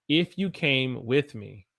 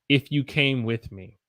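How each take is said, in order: No difference in how they are said.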